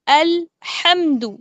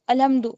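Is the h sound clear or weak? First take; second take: clear; weak. First: The h sound is clear and distinct. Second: The h sound is weak and unclear. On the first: The speaker calls it right. "हा की आवाज वाजे करेंगे" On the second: The speaker calls it wrong. "बहुत सारे बच्चे बोलते हैं अलहम्दु अलहम्दु, गलत है"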